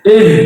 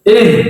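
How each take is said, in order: The two takes are said the same way.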